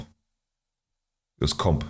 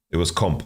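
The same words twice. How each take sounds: First: Slow, lower, stretched out; stretched-out low mumble; drawn out. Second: Said in the usual way. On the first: Real, not acted. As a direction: drag every word out lazily. Second take drawn out.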